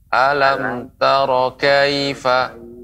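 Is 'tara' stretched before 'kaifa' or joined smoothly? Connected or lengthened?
connected. The words run together with no stretch or gap. The speaker calls it right. "Seharusnya dia langsung disambung dengan kata berikutnya"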